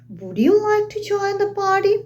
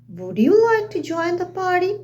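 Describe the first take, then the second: The two takes are said the same way.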